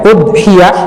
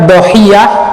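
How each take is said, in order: First: The word begins with an u vowel. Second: The word begins with a d consonant. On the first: "dhamma hamzahnya" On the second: "dibuang hamzahnya"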